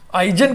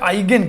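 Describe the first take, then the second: First: The middle consonant is a j sound. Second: The middle consonant is a hard g. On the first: "आइजन कहिए चाहे आइगेन कहिए, दोनों उच्चारण चलता है" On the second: "आइजन कहिए चाहे आइगेन कहिए, दोनों उच्चारण चलता है"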